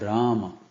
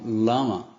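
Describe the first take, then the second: First: The word begins with an R sound. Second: The word begins with an L sound. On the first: The speaker calls it right. "ao invés de falar Rama" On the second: The speaker calls it wrong. "Eles falam Lama"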